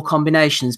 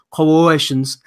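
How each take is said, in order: First: Said in the usual way. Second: "Combinations." clipped to "co-ations", the middle syllables swallowed; Tony Sims mispronunciation. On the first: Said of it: "So he's like, "Come on, Ted". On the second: Retold or imitated. Mocking the trainer's mangled "Combinations." to the other host. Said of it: "But he said".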